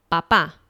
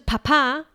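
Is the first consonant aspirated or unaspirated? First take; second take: unaspirated; aspirated. First: The first consonant has no puff of air. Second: The first consonant has a strong puff of air. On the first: The speaker calls it right. "是爸爸" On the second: The speaker calls it wrong. "不要把它念成啪啪"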